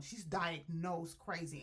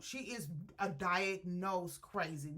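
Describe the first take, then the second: First: Slow, with diagnosed leaned on firmly; stress on diagnosed. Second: Said in the usual way. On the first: Shown as a demonstration. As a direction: press the word diagnosed to make it clear.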